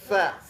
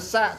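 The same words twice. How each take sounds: First: The consonant is a th with tongue between teeth. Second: The consonant is a plain hissing s. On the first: The speaker calls it right. "sa-nya cuma digigit" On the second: The speaker calls it wrong. "Bukan sa"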